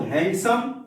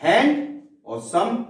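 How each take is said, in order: First: Said in the usual way. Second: hand, a pause, then सम; slow, separated hand and सम; split into two words. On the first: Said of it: "अब मैं बोल रहा हूं". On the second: Shown as a demonstration. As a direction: pull the word apart into hand and सम. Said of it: "दो अलग अलग शब्द हो गए".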